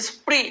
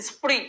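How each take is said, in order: Both takes have the same delivery.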